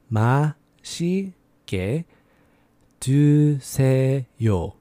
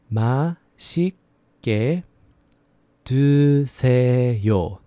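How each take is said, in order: No difference in how they are said.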